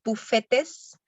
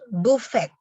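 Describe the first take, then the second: First: The final 'tes' ending is pronounced aloud. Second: The final 'tes' ending is left silent. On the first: The speaker calls it wrong. "No decimos bufetes" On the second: The speaker calls it right. "sino que decimos buffet"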